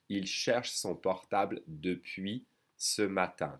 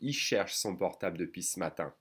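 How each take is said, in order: First: Spoken at normal pace with the L pronounced. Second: Spoken faster with the L of 'il' skipped.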